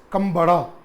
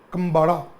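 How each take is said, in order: First: The third consonant is a d sound. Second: The same.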